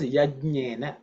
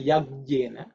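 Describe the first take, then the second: First: "Yajnena" with a j before the n, no hard g; careful "Yajnena", keeping the j sound; correct Sanskrit pronunciation. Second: "Yajnena" with a hard g replacing the j; faulty "Yajnena", a G put in; mispronounced with G. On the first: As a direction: say "Yajnena" as yaj-nyena. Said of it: "make sure that you pronounce as". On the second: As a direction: say "Yajnena" as yag-yena. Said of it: "put a G there and say". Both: Shown as a demonstration.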